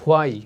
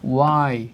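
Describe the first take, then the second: First: The word starts with an h sound. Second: The word starts with a w sound. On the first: The speaker calls it wrong. "Not হোয়াই" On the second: The speaker calls it right. "It will be ওয়াই"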